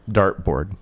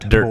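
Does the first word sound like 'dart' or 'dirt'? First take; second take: dart; dirt. First: The first vowel sounds like the vowel in 'dart'. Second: The first vowel sounds like the vowel in 'dirt'. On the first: This is how it is said now. The speaker calls it right. "say it now?" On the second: This is how it was said in childhood. The speaker calls it wrong. "That's how he always said it"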